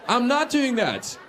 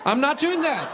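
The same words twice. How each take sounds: First: Slow, drawn-out doing; slow emphatic. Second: High stressed doing; emphatic punchline. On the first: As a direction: spell it out slowly. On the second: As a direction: hit doing hard and high. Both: Acted. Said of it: "repeated punchline".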